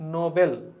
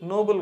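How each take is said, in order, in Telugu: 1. ఇది 'no-bel' లాగా పలుకుతారు. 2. ఇది 'noble' లాగా పలుకుతారు. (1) "దీని ప్రొనౌన్సియేషన్ వచ్చేసి నోబెల్" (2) "ఇది నోబెల్ కాదు"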